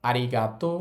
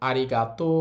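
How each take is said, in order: The two takes are said the same way.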